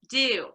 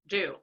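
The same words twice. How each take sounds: First: The vowel is made far forward in the mouth. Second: The vowel is made far back in the mouth. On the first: This is the current way of saying it. "is now pronounced" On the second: This is the older way of saying it. "in a more traditional pronunciation would be"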